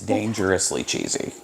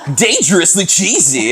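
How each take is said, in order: First: It is said in a grave, dead serious voice. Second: It is said in a playful, fun advertising voice. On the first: It is a real warning of danger. "I'm dead serious" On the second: It is a harmless, exciting treat. "say it in that voice, like, ... and it sounds fun"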